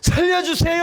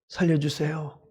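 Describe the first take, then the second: First: It is shouted loudly and urgently. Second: It is said quietly and calmly.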